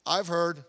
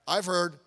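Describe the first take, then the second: No difference in how they are said.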